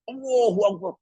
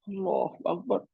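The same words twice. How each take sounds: First: It is said loudly and forcefully. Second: It is said very softly, like weeping. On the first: The speaker is glorifying himself. The speaker calls it wrong. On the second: The speaker feels weak and glorifies God. The speaker calls it right.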